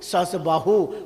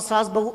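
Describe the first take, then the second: First: The first word has two syllables, sa-has. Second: The first word has one syllable, saas. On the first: The name got worn down over time. "सहस्त्र बाहु की जगह सहस बाहु" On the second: The name ended up sounding like mother-in-law and daughter-in-law. "सहस बाहु की जगह सास बहु"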